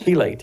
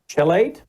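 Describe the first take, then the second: First: The word begins with a 'k' sound. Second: The word begins with a 'ch' sound. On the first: The speaker calls it right. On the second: The speaker calls it wrong.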